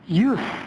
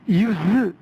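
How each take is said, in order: First: The final consonant is voiceless, an s sound. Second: The final consonant is voiced, a z sound. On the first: It is the noun meaning the act of using. "명사니까 use, 무성은 발음해야 돼요" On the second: It is the verb meaning to use something. "유성은 발음하면 사용하다 하고 동사입니다"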